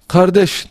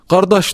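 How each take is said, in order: First: It is said with a standard Turkish pronunciation. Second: It is said with an Azerbaijani pronunciation. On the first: "biz bugün mesela kardeş diyorsak" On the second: "Azeri kardeş diyor"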